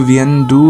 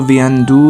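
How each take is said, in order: No difference in how they are said.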